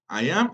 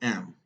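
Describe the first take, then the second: First: Both words are said in full, separately. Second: The two words merge into one short syllable. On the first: "la forma larga" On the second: "la forma corta que le llamamos contracción"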